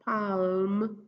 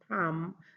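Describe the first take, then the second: First: An l sound is heard before the m. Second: No l sound; the vowel goes straight to m. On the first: The speaker calls it wrong. "not palm" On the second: The speaker calls it right. "the L M makes a sound mm, so it's palm"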